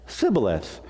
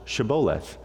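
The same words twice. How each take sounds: First: Sibboleth with S replacing SH; fail at Shibboleth by starting on S; mispronounced password. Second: Shibboleth starting with SH; supply the password, SH at the front of Shibboleth; correct password pronunciation. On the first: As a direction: say Sibboleth without any SH sound. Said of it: "Take this one out". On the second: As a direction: say Shibboleth with a clear hushing SH. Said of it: "the password's Shibboleth". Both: Acted.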